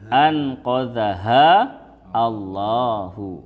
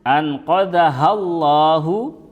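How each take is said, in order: First: The words are said separately, broken apart. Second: The words are joined smoothly without a break.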